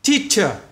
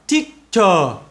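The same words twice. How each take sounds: First: The word is pronounced clearly. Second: The word sounds slurred, like a speech impediment. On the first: Listeners understand it easily. The speaker calls it right. "nếu các bạn phát âm là teacher, teacher, ok, người ta hiểu" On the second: Listeners struggle to understand it. The speaker calls it wrong. "thì người ta đâu có hiểu được ... giống như một người đang nói ngọng"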